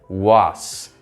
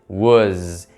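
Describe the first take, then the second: First: The word ends with a hissing s sound. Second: The word ends with a buzzing z sound. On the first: The speaker calls it wrong. "com som de S" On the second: The speaker calls it right. "é som de Z"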